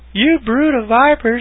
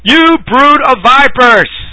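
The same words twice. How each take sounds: First: It is said in a gentle, loving tone. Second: It is said in a harsh, angry tone. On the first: The speaker is addressing them with affection. The speaker calls it wrong. "I love you" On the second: The speaker is cursing at them. The speaker calls it right. "He was angry. He was cursing"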